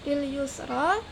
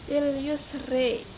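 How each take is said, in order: First: The final vowel is an open 'ah' sound. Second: The final vowel is shifted toward 'eh'.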